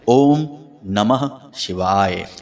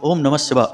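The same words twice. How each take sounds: First: It is said calmly and slowly. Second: It is said hurriedly and fast.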